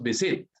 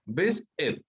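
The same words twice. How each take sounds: First: "visit" con la fuerza en la última sílaba; acento equivocado al final. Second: "Visit" con la fuerza en "vis"; acento adelante. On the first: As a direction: carga "sit" al decir "visit". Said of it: "No decimos visit". ("visit" mal acentuado: viSIT) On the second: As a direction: carga la primera sílaba de "Visit". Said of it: "la mayor fuerza de voz está adelante". ("Visit" acentuado al inicio: VIS-it) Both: Shown as a demonstration.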